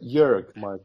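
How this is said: The first name has a German pronunciation. This is how Germans say the name. "So German say Jörg Michael"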